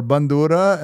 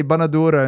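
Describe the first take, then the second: First: "bandura" with no vowel after the n; non-Lebanese pronunciation. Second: "banadura" with an extra a after the n; Lebanese pronunciation. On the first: Contrasting it with the Lebanese word, "bandura" with n straight into d. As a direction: say "bandura" in three syllables, ban-du-ra. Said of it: "instead of bun-, or". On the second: Explaining the Lebanese word to friends, "banadura" with the middle a sounded. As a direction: say "banadura" in four syllables, ba-na-du-ra. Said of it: "That's why Lebanese say". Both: Shown as a demonstration.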